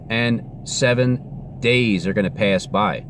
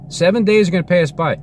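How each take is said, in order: First: Slow, deliberate prediction; slow, measured. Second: High-pitched, emphatic insistence; insistent repeat. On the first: Telling everybody what God will do, slow and measured. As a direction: spell it out slowly, word by word. First take of repeated prediction. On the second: Telling everybody what is coming, high and insistent. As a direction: drive the prediction home in a raised pitch. Prediction repeated with more force. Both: Real, not acted.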